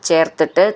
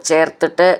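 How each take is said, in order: The two takes are said the same way.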